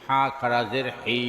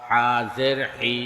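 First: Final "হি" held long; drawn-out vowel. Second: Final "হি" cut short; quick short vowel. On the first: Teacher demonstrating khara jer, long "হি". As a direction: stretch the last "হি" for one alif. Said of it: "একালিপ টেনে পড়তে". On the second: Teacher demonstrating normal jer, short "হি". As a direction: keep the last "হি" brief, not held. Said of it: "তাড়াতাড়ি করতে হয়". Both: Shown as a demonstration.

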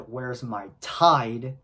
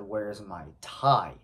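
First: Slow rising "Where's my Tide?" with a crisp final D in "Tide"; customer saying Tide. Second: Slow falling "Where's my tie?" with no D at the end of "tie"; misheard as tie. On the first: Customer asking for her Tide, slow with the final D clear. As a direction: stretch out "Tide" and land hard on the D. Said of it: "She said". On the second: The driver mishearing the customer, slow "tie" with no D. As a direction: drop the D and let "tie" fall. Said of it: "I thought she said". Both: Retold or imitated.

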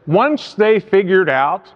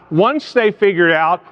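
Both takes have the same delivery.

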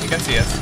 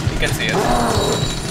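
First: Said in the usual way. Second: Slow, higher, frozen with dread; scared. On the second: Real, not acted. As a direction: let the fear slow each word down. Spotted by monster in game.

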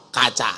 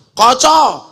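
First: "kaca" with open a sounds, as written; ngapak pronunciation. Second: "Kaca" said as koco, with round o; Javanese pronunciation. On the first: Preacher contrasting ngapak "kaca" with open a. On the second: Preacher contrasting Javanese "Kaca" said as koco. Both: Shown as a demonstration. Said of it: "Apa maning yuk?".

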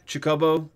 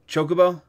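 First: Chocobo said chuh-KO-bo, weak first syllable, stress on the middle; alternate pronunciation. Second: Chocobo said CHO-kuh-bo, long O first, stress up front; other pronunciation. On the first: Streamer testing ways to say Chocobo, chuh-KO-bo. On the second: Streamer testing ways to say Chocobo, CHO-kuh-bo. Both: Shown as a demonstration. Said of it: "are you a tomato tomato guy?".

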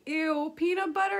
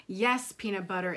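First: Put-on high, loud grossed-out kid; icked-out child querying PEANUT BUTTER; disgusted question. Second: Calm motherly confirmation; matter-of-fact answer. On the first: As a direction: ask it in rising disbelief. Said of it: "asked Gabby". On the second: Acted. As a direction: answer evenly, no room for argument. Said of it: "answered her mom".

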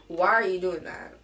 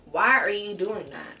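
First: Firm louder scold with stress on are; scolding again. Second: Put-on sharp, louder scold at the kids. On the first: Vlogger repeating the scold to show her tone, sharp. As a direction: demand an answer from the kids. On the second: Mom scolding kids for touching her things, sharp. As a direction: snap at naughty kids. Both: Shown as a demonstration. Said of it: "You hear my tone change?".

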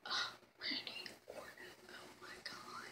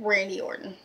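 First: Breathy swooning whisper. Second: Said in the usual way. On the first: Real, not acted. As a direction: whisper it, starstruck. Swooning over wrestler crush.

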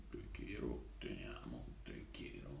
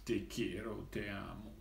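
First: Soft breathy whisper of love words. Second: Said in the usual way. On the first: Acted. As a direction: whisper it tenderly, very quiet. Repeats love words, then whispers.

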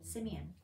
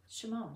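First: Simeon said the English way, SIM-ee-un; English pronunciation. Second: Shimon said the Hebrew way, shuh-MOHN; Hebrew pronunciation. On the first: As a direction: Simeon with a plain s and three syllables. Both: Shown as a demonstration.

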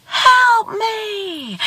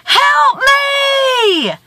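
First: Drawn-out cry, as from a distance; echoed plea. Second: High, drawn-out cry for help; long high call, held to the end; screamed plea. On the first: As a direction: imitate an echo coming back. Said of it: "And he hears". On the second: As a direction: holler for rescue across a valley. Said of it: "He screams again". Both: A narrator's reading.

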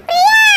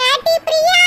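First: Loud, high shout of the name; calling out loudly. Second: Raised voice calling her name. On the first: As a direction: yell the name so she hears from outside. Calling Priya again, no answer. (உரக்க, உயர்ந்த குரலில் அழைப்பு) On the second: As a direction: call her name across the house. Calling Priya from afar. (பிரியாவை கூப்பிடும் குரல்) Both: Acted.

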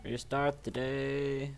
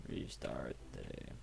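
First: Drawn-out, slow reading of Restart the day. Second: Whisper. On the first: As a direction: say Restart the day slowly and evenly. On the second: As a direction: Restart the day whispered much lower and softer. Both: Shown as a demonstration.

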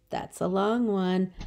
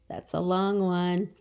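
No difference in how they are said.

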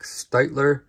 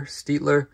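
First: Steitler said as STYTE-ler; first syllable of Steitler rhymes with "bite"; unsure name pronunciation. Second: Steitler said as STEET-ler; first syllable of Steitler rhymes with "feet"; unsure name pronunciation. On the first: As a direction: pronounce Steitler with a long I. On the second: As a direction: pronounce Steitler with a long E. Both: Real, not acted. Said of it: "do not know how to pronounce".

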